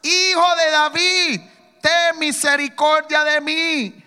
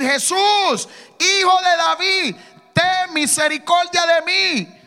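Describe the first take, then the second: First: Slow, loud, drawn-out plea; loud pleading cry; crying out louder. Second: Loud, slow desperate plea; loud pleading cry of a blind beggar. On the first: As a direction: beg at full voice, stretching each word. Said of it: "él clamaba mucho más". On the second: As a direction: cry out for mercy, drawn out. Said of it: "comenzó a dar voces y a decir". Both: Retold or imitated.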